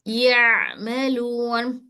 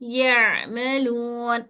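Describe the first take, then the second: No difference in how they are said.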